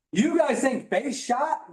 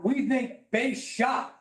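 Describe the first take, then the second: First: "base shot" slow and flat, the small idea; slow, matter-of-fact "base shot"; plain base shot. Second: "base shot" drawn out slowly, stressing "we"; big base shot. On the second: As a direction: say "we think base shot" with slow, proud weight. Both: Shown as a demonstration. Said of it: "contrast small and big thinking".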